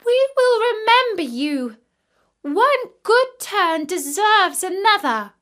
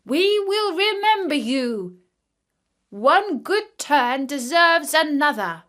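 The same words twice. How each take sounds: First: Much higher and louder bird voice; young ravens calling out their gratitude; ravens crying out. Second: Small creature voice, higher and louder; a lightly voiced ant king calling out his thanks; ant king crying out. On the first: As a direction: chirp your thanks eagerly. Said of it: "They cried". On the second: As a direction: call up gratefully from the sand like a tiny king. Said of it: "the ant king cried out to him". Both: A narrator's reading.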